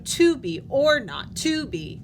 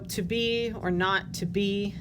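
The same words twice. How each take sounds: First: The beats fall on to, or, and to. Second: The beats fall on be, not, and be. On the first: The speaker calls it wrong. "sounds weird" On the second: The speaker calls it right. "is probably how I would mark that"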